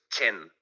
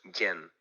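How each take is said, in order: First: The word begins with a hard 'ch' sound. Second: The word begins with a soft 'y' sound. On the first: This is how it is said in Valencian and Aragonese. "la pronunciación fuerte de la che" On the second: This is how it is said in Catalan. "que sería en catalán"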